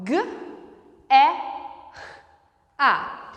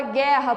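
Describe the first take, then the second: First: "G, E, A" as separate sounds, hard G, breathy R before A. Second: Said in the usual way. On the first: Shown as a demonstration. Teacher splitting guerra into phonemes, sounded out one by one. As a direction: sound out "G, E, A" with long pauses, G hard. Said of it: "na palavra guerra, por exemplo, mesma coisa". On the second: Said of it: "na palavra guerra".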